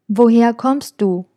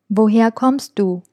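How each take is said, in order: Both takes have the same delivery.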